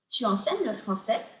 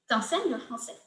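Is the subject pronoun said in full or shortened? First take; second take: full; shortened. First: The pronoun is said in full as tu. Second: The pronoun is shortened to a single t sound.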